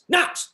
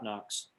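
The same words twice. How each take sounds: First: The name is called sharply with angry emotion. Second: The name is called calmly, without raised emotion. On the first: The call demands immediate attention. "eventually I'll lose my cool" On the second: The call is a gentle request that can be ignored. "without getting too excited or sounding like crazy dad"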